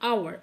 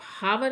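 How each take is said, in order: First: The word begins directly with a vowel sound. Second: The word begins with an audible h sound. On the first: The speaker calls it right. "आप इसको आवर pronounce कीजिए" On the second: The speaker calls it wrong. "इसको आप हावर नहीं बोलेंगे"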